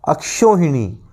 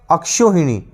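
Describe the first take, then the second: No difference in how they are said.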